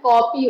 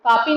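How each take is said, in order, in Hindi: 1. पहला स्वर गोल 'aw' ध्वनि है। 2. पहला स्वर खुला 'aa' ध्वनि है। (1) "होता है" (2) "नहीं होता है"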